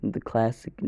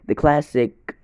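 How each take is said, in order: First: Said in the usual way. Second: "classic" hit higher and louder; proud, loud "the classic"; emphatic. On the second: Shown as a demonstration. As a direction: punch the word "classic" with a falling tune.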